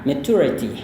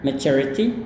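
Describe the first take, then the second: First: The t is a plain t sound. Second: The t sounds like 'cher'. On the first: "atau bahkan bisa pakai t aja ya" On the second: "atau bisa pakai cher"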